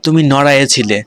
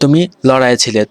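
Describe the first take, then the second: First: The second word begins with an n sound. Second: The second word begins with an l sound. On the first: This is the regional dialect form. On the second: This is the standard form.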